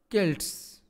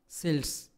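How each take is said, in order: First: The word begins with a k sound. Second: The word begins with an s sound.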